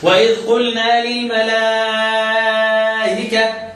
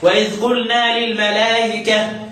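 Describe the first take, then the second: First: The vowel before the hamza is held long. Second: The vowel before the hamza is kept short. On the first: "طبعا مع إشباع المد" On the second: "يجوز لي يقصر المتصل"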